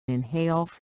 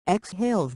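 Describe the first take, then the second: First: Inhaling. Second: Exhaling. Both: Shown as a demonstration. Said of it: "In inhales and out exhales".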